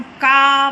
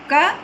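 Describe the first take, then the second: First: का with the vowel held long; drawn-out, two-beat का. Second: क said short, with a brief vowel; short, single-beat क. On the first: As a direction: stretch का to twice the length of क. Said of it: "ह्रस्व स्वर से दुगुना समय". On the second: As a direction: keep the vowel in क quick, one beat. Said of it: "ह्रस्व स्वर है". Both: Shown as a demonstration.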